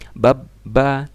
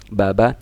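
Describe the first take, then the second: First: The middle consonant is held and doubled. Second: The middle consonant is short and single.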